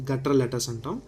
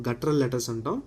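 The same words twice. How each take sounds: Both takes have the same delivery.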